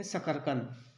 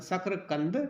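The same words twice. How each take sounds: First: शकरकंद with a vowel between k and r, "sa-kar-kand"; everyday Hindi form sakarkand. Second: शकरकंद with a joined "kr", "sak-ra-kand"; Sanskrit form sakrakand. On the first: (Hindi रूप, "सकर-कंद") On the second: (Sanskrit रूप, "सक्र-कंद") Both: Shown as a demonstration. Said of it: "या शकरकंद".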